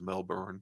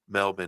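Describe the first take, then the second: First: It is said with an American accent. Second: It is said with an Australian accent.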